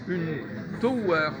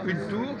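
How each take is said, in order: First: The vowel is an o gliding into w. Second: The vowel is a single plain oo sound. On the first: The speaker calls it right. "je devrais dire une tower" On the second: The speaker calls it wrong. "je devrais pas dire une tour"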